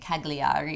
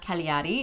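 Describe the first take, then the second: First: The G sound is clearly pronounced. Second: The G sound is silent. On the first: The speaker calls it wrong. "We were actually pronouncing this wrong for the entire trip" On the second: The speaker calls it right. "It's a silent G"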